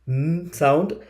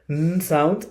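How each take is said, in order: Both takes have the same delivery.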